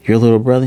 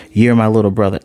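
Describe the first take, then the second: First: "Your little brother?" rising at the end; questioning echo. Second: Said in the usual way. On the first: Retold or imitated. Acted questioning echo of statement.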